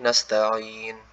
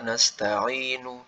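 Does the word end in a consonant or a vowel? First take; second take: consonant; vowel. First: The word ends on a consonant, vowel dropped. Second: The word ends with a final vowel sound. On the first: The reader stops on this word. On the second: This is the original form of the word.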